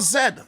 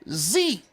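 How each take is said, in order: First: The letter is said as zed. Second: The letter is said as zee.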